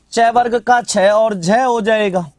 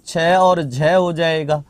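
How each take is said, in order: First: Said in the usual way. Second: Slow and lower, repeated for note taking; slow dictation. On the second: Shown as a demonstration. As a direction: say छ और झ हो जाएगा slowly so they can write it. (धीमे से दोहराते हुए) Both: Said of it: "repeated for dictation".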